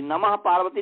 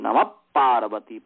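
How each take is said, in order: First: The word namah ends with a plain h sound. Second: The word namah ends with a p-like sound. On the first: The speaker calls it wrong. "नमः पार्वती नहीं कहते हैं" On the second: The speaker calls it right. "Double प की तरह समझ लीजिए"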